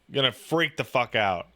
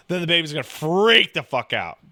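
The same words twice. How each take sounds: First: "freak" leaned on in a softer, lower echo; quieter repeat. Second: Said in the usual way. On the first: Shown as a demonstration. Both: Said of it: "repeated for emphasis".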